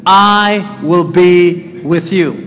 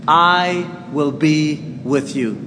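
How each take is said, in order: First: "I will be with you" slow and louder, each word weighed; firm promise. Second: Soft, slow and gentle; quiet promise. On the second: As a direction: lay the promise down softly. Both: Shown as a demonstration. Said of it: "repeats the promise".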